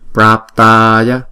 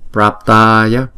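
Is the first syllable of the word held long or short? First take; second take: long; long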